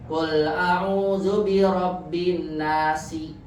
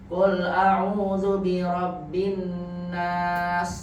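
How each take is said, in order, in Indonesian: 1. Kata terakhir berakhir dengan vokal pendek. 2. Kata terakhir berakhir dengan konsonan mati.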